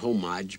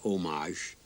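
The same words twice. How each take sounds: First: It is pronounced the American English way. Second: It is pronounced the French way. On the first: "we pronounce it homage" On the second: "but it's pronounced homage"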